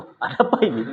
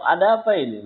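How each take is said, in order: First: Retold startled "ada apa ini", a little laughing; a first-timer startled by the guards, half laughing. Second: Said in the usual way. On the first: Newcomer startled by the armed guards, mock alarm. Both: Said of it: "Pertama kali ya, kena mental juga".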